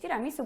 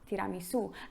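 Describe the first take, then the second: First: The stress falls before the final syllable. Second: The stress is on the final syllable. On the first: The speaker calls it wrong. "jakbyśmy wypowiedzieli to po polsku po prostu" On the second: The speaker calls it right. "Akcent jest na końcu słowa"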